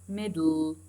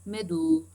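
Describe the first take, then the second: The two takes are said the same way.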